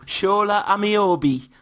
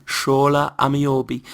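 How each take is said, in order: First: Slow Newcastle accent, pitched up, on "Shola Ameobi". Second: Newcastle accent. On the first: Warming up his Newcastle accent for his co-host. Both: Shown as a demonstration. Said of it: "That's how you get into a Newcastle accent".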